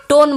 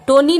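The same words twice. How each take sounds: First: टोन ending on the N sound; टोन with the written final E left silent. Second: टोनी ending in an "ee" vowel; टोनी with the written final E wrongly voiced as "ee"; final E sounded. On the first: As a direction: say टोन as one syllable, no vowel after N. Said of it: "ई का उच्चारण हम नहीं करेंगे". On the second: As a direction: say टोनी as two syllables, "to-nee". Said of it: "टोनी हम नहीं बोलेंगे इसे". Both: Shown as a demonstration.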